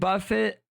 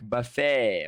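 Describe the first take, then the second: First: The final T is clearly sounded. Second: The final T is silent, French style. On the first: "with a hard T" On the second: "in a French accent like buffet of food"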